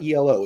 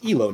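First: It is spelled out as separate letters. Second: It is said as one word, like a name. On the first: It is treated as an acronym. The speaker calls it wrong. "not ELO" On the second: It is named after a person. The speaker calls it right. "It's after somebody's name. It's not an acronym"

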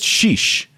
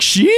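First: It is said plainly and quietly. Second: It is said loudly with strong inflection.

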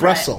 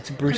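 First: The name sounds like the city Brussels. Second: The name is said as Broussel. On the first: The speaker calls it wrong. "I think we said Brussels" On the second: The speaker calls it right. "And it's not. It's Broussel"

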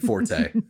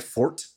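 First: The word is said as two syllables. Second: The word is said as one syllable. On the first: This is the way most people actually say it. "So I'm going to keep saying forte" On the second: This is the officially correct pronunciation. "Apparently it's supposed to be pronounced fort"

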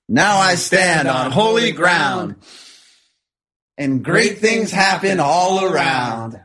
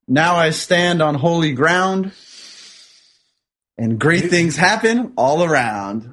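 First: It is said with lively, spirited energy. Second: It is said in a calm, plain way.

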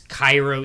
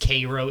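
First: The name is said the standard way. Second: The name is said the local Midwest way. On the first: It names the city in Egypt. "it's Cairo, Egypt" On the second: It names the town in Illinois. "but it's Cairo, Illinois"

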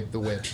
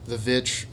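First: The word begins with a W sound. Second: The word begins with a V sound. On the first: "or did you say The Witch?" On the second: "Is that how you pronounce it, the two V's"

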